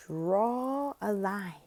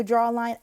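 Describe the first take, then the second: First: Very slow, softer, stretched words; teacher instructing child. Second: Said in the usual way. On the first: Shown as a demonstration. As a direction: guide a small child word by word. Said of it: "when I'm telling them to draw a line". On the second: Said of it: "when I'm telling them to".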